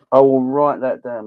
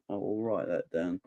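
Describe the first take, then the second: First: Louder, firm promise to note it down; emphatic promise. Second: Softer, half to himself; quiet repeat. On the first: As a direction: say it out, playful and sure. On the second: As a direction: mutter it as a reminder to yourself. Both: Real, not acted. Repeats promise to write it down.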